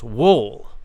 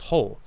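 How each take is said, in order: First: The word starts with a W sound. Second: The word starts with an H sound. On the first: The speaker calls it wrong. "you might think it's pronounced wool. But of course you would be wrong" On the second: The speaker calls it right. "the W is silent. It's pronounced whole"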